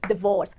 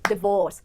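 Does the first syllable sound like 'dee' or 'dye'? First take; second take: dee; dee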